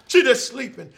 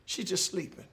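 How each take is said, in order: First: Said in the usual way. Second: Soft reassurance. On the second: Acted. Jesus reassures the father.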